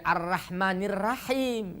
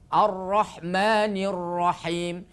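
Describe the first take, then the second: First: The r is pronounced light and thin. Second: The r is pronounced heavy and full. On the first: The speaker calls it wrong. "Tidak boleh" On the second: The speaker calls it right. "harus dibaca tebal"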